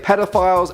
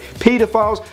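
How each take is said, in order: First: It is said in a North American accent. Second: It is said in a British accent.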